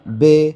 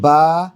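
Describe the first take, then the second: First: The name ends in an 'ay' vowel. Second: The name ends in an 'ah' vowel. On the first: This is the Urdu way of saying it. The speaker calls it wrong. "Urdu में तो पढ़ सकते हैं मगर अरबी में ना पढ़ें" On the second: This is the Arabic way of saying it. The speaker calls it right. "बल्कि ... इस तरह पढ़ें"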